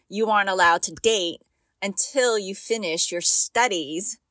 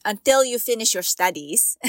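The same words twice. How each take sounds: First: Said in the usual way. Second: Put-on light Filipino accent on the quote; a hint of a Filipino dad's accent. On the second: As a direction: mimic her dad's Filipino accent, firmly. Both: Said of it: "let me say it in his accent".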